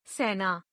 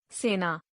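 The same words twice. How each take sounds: First: सेना with an open "ai"; mispronounced. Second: Said in the usual way. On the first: Shown as a demonstration. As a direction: say सेना as "sainaa". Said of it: "अशुद्ध". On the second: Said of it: "शुद्ध".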